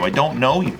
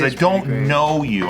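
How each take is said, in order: First: Said in the usual way. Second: I don't know you, slow with weight on "don't"; stress on know. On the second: Shown as a demonstration. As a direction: lean on "don't" slowly. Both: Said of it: "I wanna emphasize".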